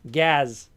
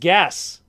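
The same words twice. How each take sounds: First: The word ends with a buzzing z sound. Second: The word ends with a hissing s sound.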